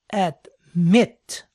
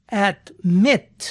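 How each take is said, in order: First: "admit" drawn out with the weight on MIT; stress on last syllable. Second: Said in the usual way. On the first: Shown as a demonstration. Teacher showing learners where the accent falls, final-syllable stress on "admit". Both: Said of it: "la acentuación cae en la última sílaba".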